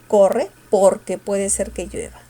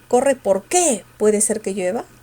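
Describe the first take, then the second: First: The stress falls on por, not que. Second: The stress falls on que, not por. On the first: "mayor fuerza en el por" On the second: "con fuerza en el qué sería"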